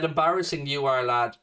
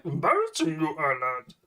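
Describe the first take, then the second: First: Said in the usual way. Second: Put-on Star Wars creature voice; mock Star Wars character. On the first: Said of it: "George said". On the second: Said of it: "you're fucking from Star Wars here".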